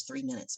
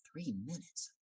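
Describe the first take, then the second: First: Said in the usual way. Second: Hushed, incredulous question; acted quiet alarm on "Three minutes"; disbelieving thought. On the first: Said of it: "what I thought I heard was". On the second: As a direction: question "Three minutes" softly to yourself, rising at the end. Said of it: "And I thought".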